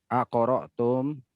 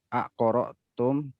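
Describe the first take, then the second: Both takes have the same delivery.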